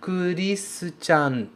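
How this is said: The name is said with a Japanese pronunciation. "Isso é como um japonês pronunciaria o meu nome"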